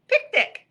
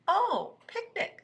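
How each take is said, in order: First: High, loud exclamation of picnic; excited announcement. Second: Pleased realization. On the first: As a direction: call it out brightly, pitched way up. Robot announces a surprise picnic. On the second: Rabbit catches on to the picnic. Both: Acted.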